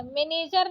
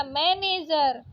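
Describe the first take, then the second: First: मैनेजर said "me-nejar", closed e; wrong vowel. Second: Said in the usual way. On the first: Shown as a demonstration. Teacher rejecting a spelling, मैनेजर with plain e. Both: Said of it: "मैनेजर नहीं होता".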